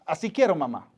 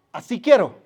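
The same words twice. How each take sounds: First: Said in the usual way. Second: Put-on little boy asking. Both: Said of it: "Y le dijo a su mamá".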